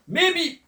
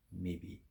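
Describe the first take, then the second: First: High, loud sneering echo of maybe; mocking echo. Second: Soft, low and unbothered; the old farmer answers the jealous farmers, calm and low; quiet calm maybe. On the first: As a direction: throw his word back with a sneer. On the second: Acted. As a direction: shrug it off softly. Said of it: "the farmer says".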